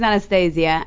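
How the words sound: The name is pronounced with English sounds. "that's the English way of pronouncing it"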